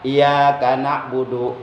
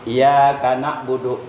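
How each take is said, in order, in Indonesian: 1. Bunyi y dibaca pendek dan tunggal. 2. Bunyi y dibaca pendek dan tunggal.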